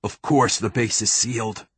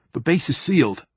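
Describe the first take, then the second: First: Understated, tightly held irritation; mildly exasperated reply through gritted teeth. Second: Lightly voiced higher young soldier; a hint of a youthful lieutenant, pitched up; young marine. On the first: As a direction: keep the pitch level and hold the anger in. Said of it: "Theo said through gritted teeth". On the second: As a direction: state it as an anxious junior officer. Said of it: "the voice sounded young". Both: A narrator's reading.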